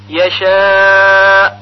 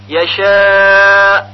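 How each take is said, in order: Both takes have the same delivery.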